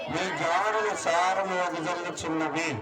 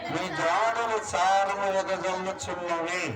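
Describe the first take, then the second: Both takes have the same delivery.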